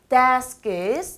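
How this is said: The pitch dips down and then rises. The speaker calls it right. "desks 내려갔다 올라가고요"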